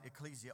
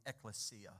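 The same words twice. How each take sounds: First: Ecclesia as ih-KLEE-zee-uh; anglicized pronunciation. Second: Ecclesia as ek-leh-SEE-uh; more accurate pronunciation. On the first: Preacher giving the Greek word for church, ecclesia as ih-KLEE-zee-uh. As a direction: say "ecclesia" with stressed KLEE and a z sound. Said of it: "or more m-, accurately, probably". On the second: Preacher correcting himself on the Greek, ecclesia as ek-leh-SEE-uh. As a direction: say "ecclesia" with stressed SEE and an s sound. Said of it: "more m-, accurately, probably". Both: Shown as a demonstration.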